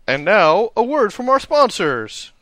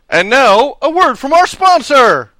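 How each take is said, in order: First: It is said flatly, with little energy. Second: It is said loudly, with a lot of energy.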